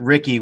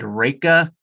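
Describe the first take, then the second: First: The name is said the Americanized way. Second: The name is said the German way. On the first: The speaker calls it wrong. "we pronounce it Ricky, which actually is completely wrong" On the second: The speaker calls it right. "it's actually supposed to be something like Reka uh, in German"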